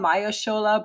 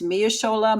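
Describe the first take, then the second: First: The first syllable sounds like 'my'. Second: The first syllable sounds like 'mee'. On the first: The speaker calls it right. "you said it right the second time" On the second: The speaker calls it wrong. "I don't know if it's Mia Shola"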